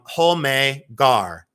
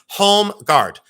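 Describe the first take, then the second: First: The name ends without any D sound. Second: The name ends with a hard D sound.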